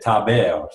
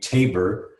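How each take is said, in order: First: The name is said with a French pronunciation. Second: The name is said with an English pronunciation. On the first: This is how French speakers say the name. "I lived in France as a as a kid, and they said" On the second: This is how English speakers say the name. "in English, they usually say my name"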